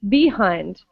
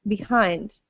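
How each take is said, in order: First: The stress is on the first syllable. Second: The stress is on the second syllable. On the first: The speaker calls it wrong. "imagine we stress the first syllable. It would sound like behind" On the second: The speaker calls it right. "We stress the second syllable and say behind"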